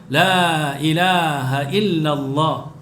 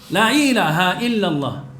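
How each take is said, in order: First: The opening la is held long. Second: The opening la is short and runs straight on. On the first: The speaker calls it right. "Patutnya la ilaha illallah. Itu yang betul" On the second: The speaker calls it wrong. "Kalau dia terus sambung"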